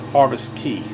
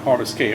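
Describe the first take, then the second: First: The second word rhymes with 'see'. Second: The second word rhymes with 'say'. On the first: The speaker calls it right. "it's pronounced Key" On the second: The speaker calls it wrong. "not Harvest K"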